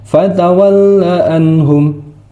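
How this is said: It stops after anhum before continuing. The speaker calls it right. "Jadi harus berhenti"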